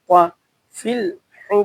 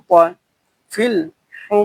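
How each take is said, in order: Both takes have the same delivery.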